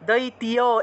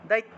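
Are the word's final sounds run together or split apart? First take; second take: split apart; run together. First: The ending is split into separate syllables, ti-ya. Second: The ending is run together as one syllable, tya. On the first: The speaker calls it wrong. "দৈতীয় এভাবে উচ্চারণ করলে হবে না" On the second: The speaker calls it right. "একসাথে বলতে হবে দৈত্য, দৈত্য এভাবে"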